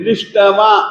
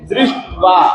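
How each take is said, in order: First: The middle consonant is followed by a full vowel. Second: The middle consonant is said without any vowel. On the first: The speaker calls it wrong. "ड को हम पूरा नहीं बोलते हैं, दृष्टवा ऐसा नहीं बोलते हैं" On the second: The speaker calls it right. "हलंत अक्षर को हलंत की तरह से ही बोलना"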